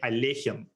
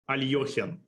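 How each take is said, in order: First: The vowel after the L sounds like 'e'. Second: The vowel after the L sounds like 'yo'. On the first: This is how the man himself said his name. "not a Y O, but an E sound" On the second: This is how most Russians say the name. "most Russians, ... will say Alyoshin"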